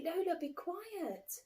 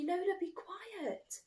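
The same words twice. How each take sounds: First: Slow, firm big-brother hush; slow scolding hush; stern hush. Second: Slow, firm big-brother hush again; slow scolding hush; stern hush. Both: A narrator's reading. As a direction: tell her off slowly and firmly. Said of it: "I say".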